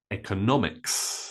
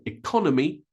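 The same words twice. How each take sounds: First: Economics as EK-uh-NOM-iks; stress on NO. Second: Economy as ih-KON-uh-mee; different stress. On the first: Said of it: "I stress the no". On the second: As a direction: stress the second syllable of economy, CON. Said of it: "the stress is different". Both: Shown as a demonstration.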